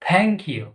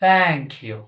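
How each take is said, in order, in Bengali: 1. Thank শুরু হয় একটি শক্ত, অ্যাসপিরেটেড t ধ্বনি দিয়ে। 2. Thank শুরু হয় একটি নরম th ধ্বনি দিয়ে। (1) "it's not থ্যাংক you" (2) "it's Thank you"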